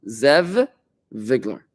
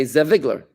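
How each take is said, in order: First: Zev, short pause, then Vigler, each V said fully; words kept apart. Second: Zev Vigler blended, the V said only once; "Zev Vigler" slurred so one V sound links both words; run together. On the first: To students, showing the right way: a clean break between words. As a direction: finish "Zev" completely before starting "Vigler". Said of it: "What you should say is". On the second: To students, showing the wrong way: one merged V. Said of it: "So you could technically say". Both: Shown as a demonstration.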